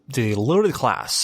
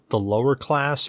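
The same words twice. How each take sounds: First: It is said in a put-on British accent. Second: It is said in the speaker's normal accent.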